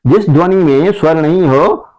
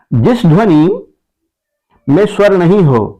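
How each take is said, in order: First: Said in the usual way. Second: Slow, phrase by phrase, with a pause after जिस ध्वनि; teacher dictating slowly in chunks; slow dictation. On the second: Shown as a demonstration. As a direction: dictate it slowly for the class to write.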